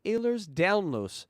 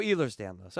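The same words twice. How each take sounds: First: Ehlers Danlos said as AY-lers DOWN-lohs; first pronunciation attempt. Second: Ehlers Danlos said as EE-lers DAN-lohs; corrected pronunciation. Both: Real, not acted. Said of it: "I said that right".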